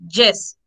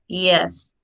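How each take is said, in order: First: The word begins with a harder consonant sound. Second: The word begins with a gliding semi-vowel sound. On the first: The speaker calls it wrong. "Most of people say yes" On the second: The speaker calls it right. "the correct pronunciation is yes"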